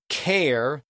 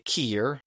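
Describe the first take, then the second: First: The vowel sounds like 'air'. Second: The vowel sounds like 'ear'. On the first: "instead of saying care" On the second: "they would say keer"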